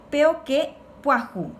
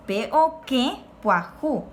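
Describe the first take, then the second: First: Said in the usual way. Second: "que" nasalised in "peo que puajú"; "peo que puajú" with a nasal "e" in "que". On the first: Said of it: "Ese duerme es nuevo". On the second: Shown as a demonstration. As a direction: send the vowel of "que" through the nose. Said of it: "Esa puerta es nueva".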